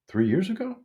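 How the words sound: The pitch rises at the end. It asks a question. "That's a question. That's that because of my upward inflection"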